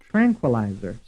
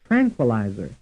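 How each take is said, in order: No difference in how they are said.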